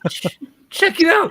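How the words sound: It is read in a put-on cartoon character voice.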